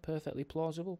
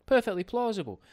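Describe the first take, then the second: First: "plausible" softly lifted as a question; questioning tune. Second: "Perfectly plausible" high and loud, falling at the end; confident emphasis. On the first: Host checking whether it's the right word, questioning "plausible". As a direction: test out "plausible", higher and softer, unsure. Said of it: "is that the right word". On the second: Host settles on the right word, confident "Perfectly plausible". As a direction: land firmly on "Perfectly", pitched up high. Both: Real, not acted.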